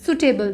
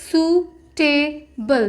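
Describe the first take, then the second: First: Said in the usual way. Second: Drawn-out word. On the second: Shown as a demonstration. Teacher to shorthand students, suitable drawn out slowly. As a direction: stretch suitable out very slowly, syllable by syllable. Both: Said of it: "तो word होगा".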